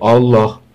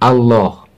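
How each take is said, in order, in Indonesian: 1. Vokal pertama itu tebal dan gelap. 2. Vokal pertama itu tipis dan ringan. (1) "Jangan Allah" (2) "A-nya tetap dibaca tarkik"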